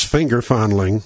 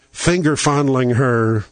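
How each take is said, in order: First: Said in the usual way. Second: "finger fondling" said slowly, each word leaned on; slow it down and weigh "finger fondling"; stressed phrase. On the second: Shown as a demonstration. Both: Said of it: "Don King coined that phrase".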